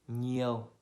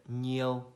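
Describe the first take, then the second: The two takes are said the same way.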